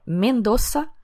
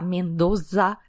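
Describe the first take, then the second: First: The z is said as a hissing s sound. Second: The z is said as a buzzing z sound. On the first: The speaker calls it right. "escreve com Z, mas pronuncia como S" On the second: The speaker calls it wrong. "para de falar Mendoza"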